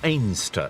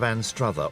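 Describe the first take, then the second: First: The name is said in a clipped, shortened form. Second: The name is said in its full spelled-out form. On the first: This is how people from the town say it. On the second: This is the standard form of the name.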